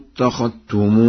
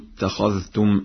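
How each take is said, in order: First: The dh sound merges into the following t. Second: The dh sound is pronounced clearly before t.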